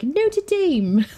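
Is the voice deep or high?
high. It is said in a higher, undeepened voice.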